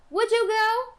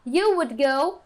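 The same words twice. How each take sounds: First: High-pitched rising "Would you go?"; question intonation. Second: Said in the usual way. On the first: Shown as a demonstration. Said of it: "você vai falar". (entonação de pergunta, "Would you go?" agudo e subindo) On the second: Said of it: "Ao invés de falar".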